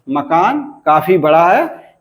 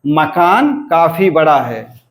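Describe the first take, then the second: First: Said in the usual way. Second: Slowed model reading: मकान level, काफी बड़ा raised, है falling; demo of sentence tune. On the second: Shown as a demonstration. Teacher modelling the normal-sentence tune for students, slow and falling. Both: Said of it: "अंत में क्या हुआ कि निम्न अनुतान सांचा".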